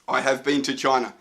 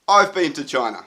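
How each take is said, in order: First: The verb 'have' is said in full. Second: The verb 'have' is contracted to 've. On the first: It sounds stiff and robotic in speech. The speaker calls it wrong. "we sound a bit like a robot if we talk like that" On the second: It sounds natural in spoken English. The speaker calls it right. "So instead, we would say"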